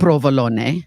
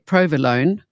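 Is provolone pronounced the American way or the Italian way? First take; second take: Italian; American. First: It is pronounced with an Italian accent. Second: It is pronounced with an American accent. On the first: "it's Italian and" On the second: "as the Americans would say"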